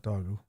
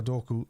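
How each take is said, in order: First: Dogu said with a g where the k should be; wrong name. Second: Doku said with a hard k in the middle; the right way: Doku with a k; correct name. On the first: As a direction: Dogu as doh-goo, the mistaken version. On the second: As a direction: say Doku as doh-koo, crisp k sound. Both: Shown as a demonstration. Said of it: "not Dogu".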